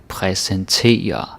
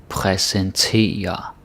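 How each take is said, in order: Both takes have the same delivery.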